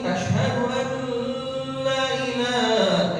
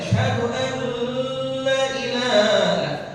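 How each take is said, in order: No difference in how they are said.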